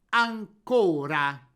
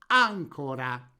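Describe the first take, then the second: First: The stress is on the second syllable. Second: The stress is on the first syllable. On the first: "mettiamo l'accento tonico sulla penultima vocale, ottenendo la parola piana" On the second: "poniamo l'accento tonico sulla terzultima vocale, costruendo la parola sdrucciola"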